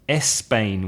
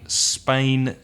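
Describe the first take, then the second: First: The word starts with an added e vowel sound. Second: The word starts directly with an s sound. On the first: The speaker calls it wrong. "which is not correct" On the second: The speaker calls it right. "instead of saying Spain"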